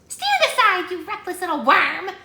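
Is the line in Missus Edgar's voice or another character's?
Missus Edgar. It is in Missus Edgar's voice.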